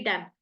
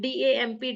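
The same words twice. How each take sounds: First: Said in the usual way. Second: D A M P, each letter named separately; spelling out a word. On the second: Shown as a demonstration. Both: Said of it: "it's damp".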